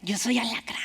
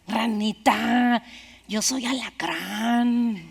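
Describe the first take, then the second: First: Whispered echo of the line, much softer; whispered repeat. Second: Slow, softer, final verdict; cold scorpion. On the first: Scorpion repeating his nature to the frog, whispered. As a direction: breathe it out like a dark secret. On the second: Scorpion answering the dying frog, slow and cold. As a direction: let each word fall slowly, no remorse. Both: A narrator's reading.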